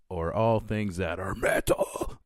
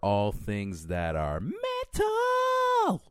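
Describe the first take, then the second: First: It is said in a growled, rough voice. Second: It is said in a plain speaking voice.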